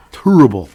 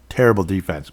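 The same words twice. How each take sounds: First: Chuck's turrible. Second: Said in the usual way. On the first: Retold or imitated. Host imitates Chuck's catchphrase, loud mock turrible. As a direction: belt out turrible like the TV analyst. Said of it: "as Chuck would say". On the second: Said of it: "Terrible, as Chuck would say".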